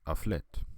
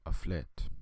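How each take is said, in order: Both takes have the same delivery.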